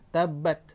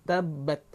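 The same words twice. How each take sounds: Both takes have the same delivery.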